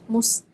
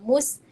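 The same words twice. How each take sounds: First: The s sound is heavy and thick. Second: The s sound is light and thin. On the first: The speaker calls it wrong. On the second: The speaker calls it right.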